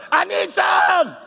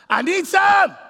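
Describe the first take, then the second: First: High, loud and slow shouted plea; slow, loud, high husband's howl of need; needy husband, drawn out. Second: High, loud pleading shout; husband's loud, high begging; needy husband. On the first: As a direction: stretch the begging out as a hammed-up howl. Husband voiced wanting sex, repeated. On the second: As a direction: cry out like a starving man. Husband voiced wanting sex. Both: Retold or imitated.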